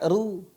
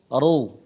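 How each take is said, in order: First: The syllable is pronounced light and thin. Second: The syllable is pronounced heavy and full. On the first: The speaker calls it wrong. "Bukan dibaca ru. Ru itu tipis" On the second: The speaker calls it right. "tapi dibaca tebal"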